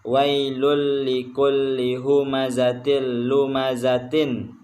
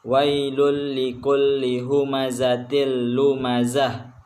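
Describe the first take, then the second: First: The last word ends with a t sound and vowel. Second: The last word ends with a soft h sound. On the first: The reading continues without a stop. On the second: The reader stops at the end of the verse. "kalau kita berhenti di ayat tersebut maka dibaca wailul likulli humazatil lumazah menjadi ha"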